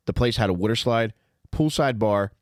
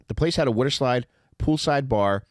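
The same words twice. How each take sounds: The two takes are said the same way.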